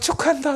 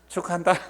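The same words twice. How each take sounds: First: It is said warmly and enthusiastically. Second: It is said coldly and grudgingly. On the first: The speaker is truly glad for someone they like. "내가 진짜로 좋아하는 사람 자식이 잘 되면요" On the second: The speaker is not really glad for someone they dislike. "내가 평소에 안 좋아하는 사람이 잘 됐으면 어떻게 말해요?"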